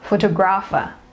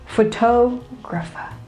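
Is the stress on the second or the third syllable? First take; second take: third; second. First: The stress falls on the third syllable. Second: The stress falls on the second syllable. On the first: The speaker calls it wrong. "but it is not stressed on the third syllable" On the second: The speaker calls it right. "It is stressed on the second syllable"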